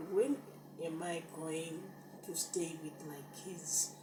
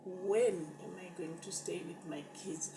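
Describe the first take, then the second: First: Said in the usual way. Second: Breathless whispered plea; whispered prayer. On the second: Retold or imitated. Whispering to God, begging to stay with her kids.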